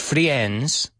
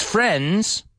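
First: "friends" with an extra i sound, "fri-ends"; mispronounced friends. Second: "friends" with a silent i, "frends"; correct friends pronunciation. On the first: Teacher showing learners the common mistake, "friends" said as "fri-ends". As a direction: say "friends" wrongly as two vowels, "fri-ENDS". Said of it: "Fijaos en la pronunciación ... no es". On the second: Teacher correcting learners, "friends" said as "frends" without the i. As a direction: say "friends" with one short e vowel, as "frends". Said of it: "es como si no estuviera esa I". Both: Shown as a demonstration.

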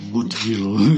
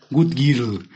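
First: "Good girl" dropped much lower in a put-on thick voice; mock deep voice. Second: Put-on "Good girl" with a heavy Mexican Spanish accent, "gut girl"; bad English accent. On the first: Mocking a TikTok guy with a fake deep voice, lower. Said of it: "pero con su voz gruesa". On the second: TikTok guy who can't speak English, mocked with a bad accent. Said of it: "se notó que no sabe inglés".

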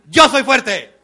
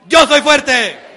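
First: Loud, laughing demo of "Yo soy fuerte"; strong shout. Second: Loud, higher shout of "Yo soy fuerte", dragged very slowly; slow strong shout. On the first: Speaker shows the crowd how to shout the phrase, laughing. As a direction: shout it out with force, half laughing. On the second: Speaker leads the crowd, shouting slowly. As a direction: stretch each word out as a loud declaration. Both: Shown as a demonstration. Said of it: "repitan mis movimientos y mi tono de voz".

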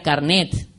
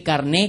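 First: "carnet" with the final T sounded; old form with T. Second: "carné" ending on a stressed E, no T; new form, accented E. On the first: Recalling the old spelling for listeners, final T pronounced. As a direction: close "carnet" on a T. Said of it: "Antes se escribía carnet". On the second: Showing the Academy's new word, stressed open ending. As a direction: drop the T and stress the last E of "carné". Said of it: "con acento en la E". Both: Shown as a demonstration.

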